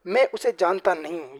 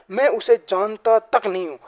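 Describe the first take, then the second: First: Said in the usual way. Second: Slow, firm, stress on मैं and तक; insistent denial. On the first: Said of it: "ये किसी normal बात की जा रही है". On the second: Shown as a demonstration. Teacher demos answering someone who pressures him, firm denial. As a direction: deny it under pressure, hitting मैं. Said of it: "कोई pressure लगा के पूछ रहा है".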